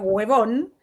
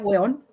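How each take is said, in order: First: The v sound in the middle is pronounced. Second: The v sound in the middle is dropped. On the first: The speaker calls it wrong. "nunca se pronuncia huevón" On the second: The speaker calls it right. "se pronuncia hueón"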